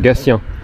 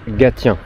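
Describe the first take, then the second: First: The middle consonant is pronounced as an s. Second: The middle consonant is pronounced as a t. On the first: The speaker calls it right. "le T se prononce se pour Gatien" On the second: The speaker calls it wrong. "pas Gatien"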